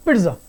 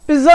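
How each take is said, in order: First: पिट्जा as quick "pitza", t before z; short, lower पिट्जा in one smooth go; correct pronunciation. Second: पिज्जा as "piz-za", zz without t; louder पिज्जा with no t sound; wrong pronunciation. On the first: Teacher giving the fluent right form, correctly pronounced. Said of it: "तो इसकी pronunciation होगी सही". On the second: Teacher rejecting the common form, mispronounced. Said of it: "पिज्जा नहीं होती". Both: Shown as a demonstration.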